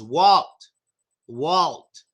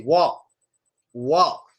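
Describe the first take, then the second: First: "Walt" with a hard L and released T. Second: "walk" as Walt, L barely there and final T held back; native "Walt". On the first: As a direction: use the tongue firmly for the L in "Walt". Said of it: "make the L sound hard". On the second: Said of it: "we barely pronounce". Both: Shown as a demonstration.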